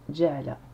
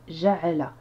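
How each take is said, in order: First: The jim is said the Quranic way. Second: The jim is said the everyday way. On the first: This is how it is read in the Quran. "Ici, dans le Coran, ça donne ja'ala" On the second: This is how it is read in common readings. "Dans le langage courant, enfin dans les lectures courantes, on dit ja'ala"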